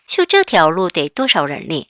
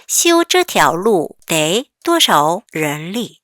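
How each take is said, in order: First: Slow, clear repeat of the sentence; slow model reading. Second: Very slow, each syllable drawn out for learners; slow read-aloud. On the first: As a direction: model it once more, slowly. (천천히 다시 읽어주기) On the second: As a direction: read it slowly for the class to follow. (천천히 또박또박 읽기) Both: Shown as a demonstration. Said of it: "같이 읽어볼게요".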